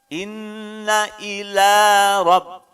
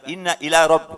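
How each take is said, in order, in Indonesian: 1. Vokal pada 'ila' dibaca panjang. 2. Vokal pada 'ila' dibaca pendek. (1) "lanya dua harokat" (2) "bukan inna ila rabb, bukan"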